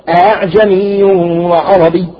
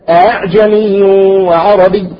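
The two takes are said the same way.

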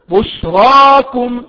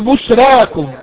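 First: The r sound is heavy and full. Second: The r sound is light and thin. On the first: The speaker calls it right. "الراء في رواية حفص ان كانت مفتوحة فهي مفخمة" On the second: The speaker calls it wrong. "لا تقل بشراكم"

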